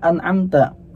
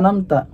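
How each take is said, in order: First: The 'ain sound in the middle is clearly said. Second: The 'ain sound in the middle is dropped. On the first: The speaker calls it right. "padahal mestinya an'amta" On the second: The speaker calls it wrong. "hilang huruf ainnya tuh"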